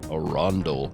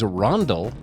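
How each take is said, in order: First: It is said in a deep, put-on voice. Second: It is said in an ordinary speaking voice.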